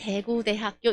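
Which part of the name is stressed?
대구. Seoul style, without stress on 대학교.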